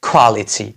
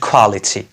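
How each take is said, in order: Both takes have the same delivery.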